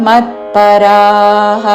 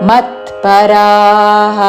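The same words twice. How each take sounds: Both takes have the same delivery.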